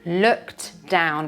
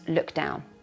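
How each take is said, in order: First: The t at the end of looked is pronounced. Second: The t at the end of looked is dropped.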